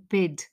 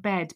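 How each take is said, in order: First: The vowel is raised, close to 'i'. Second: The vowel is an open 'e' sound. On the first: "but she says you're meant to be in bid" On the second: "She says you're meant to be in bed"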